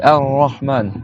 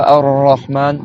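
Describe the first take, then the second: First: Ar-Rahman, slow, tongue-tip R held; held R, not rolled. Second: Ar-Rahman with a long trilled R; wrong rolled R. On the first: Teacher showing students Ar-Rahman, R held unrolled. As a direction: hold the R of Ar-Rahman without trilling. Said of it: "le tenir un peu". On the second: Teacher showing students an error, Ar-Rahman heavily rolled. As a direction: roll the R of Ar-Rahman. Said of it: "faut pas le faire rouler". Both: Shown as a demonstration.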